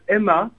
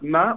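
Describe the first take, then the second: First: The name is said as two syllables. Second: The name is said as one syllable. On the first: The speaker calls it right. "on prononce Emma. Comme le prénom" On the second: The speaker calls it wrong. "on prononce pas Ma"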